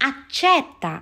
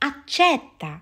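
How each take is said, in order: Both takes have the same delivery.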